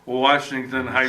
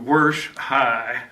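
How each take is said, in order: First: The town name is said in full, three syllables. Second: The town name is shortened to one syllable, Warsh. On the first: The speaker calls it wrong. "we do not say Washington High" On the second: The speaker calls it right. "go to Warsh High"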